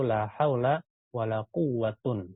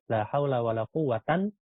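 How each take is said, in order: First: The last word ends in 'un'. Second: The last word ends in 'an'. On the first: "yang ketiga kita baca rofa marfu" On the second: "yang kedua kita baca mansub"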